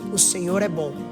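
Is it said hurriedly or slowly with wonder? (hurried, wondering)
wondering. It is said slowly with awe. The reader is reflecting on what it means. The speaker calls it right. "Você precisa ir com calma em cada palavra"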